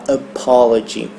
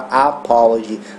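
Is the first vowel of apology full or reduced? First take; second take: reduced; full. First: The first vowel is a short, reduced sound. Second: The first vowel is a full, open a. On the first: The speaker calls it right. "a gente fala apology" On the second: The speaker calls it wrong. "a gente não fala apology"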